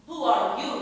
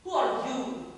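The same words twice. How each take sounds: First: Who are you, louder with a rise on are; loud rising question. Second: Who are you, falling on are; falling question. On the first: Avenger demanding her captive's name, loud rise. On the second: Avenger questioning her captive, falling tone. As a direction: press the word are, then let it fall. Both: Acted.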